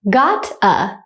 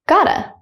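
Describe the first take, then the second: First: The two words are said slowly and separately. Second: The two words are run together quickly. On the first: "one time slowly" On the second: "at a normal speed, like a native speaker"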